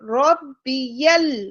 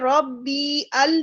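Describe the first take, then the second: First: The sounds run together as one word. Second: The sounds are split into two parts. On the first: The speaker calls it right. "रब्बियल, ठीक है?" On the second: The speaker calls it wrong. "रब्बी अल नहीं होगा"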